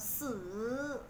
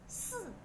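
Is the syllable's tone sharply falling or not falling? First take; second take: not falling; falling. First: The syllable has a tone that does not fall sharply. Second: The syllable has a sharp falling tone. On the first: It means to die. "sử là chết rồi" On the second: It means the number four. "sư này số 4 thanh 4 là sư"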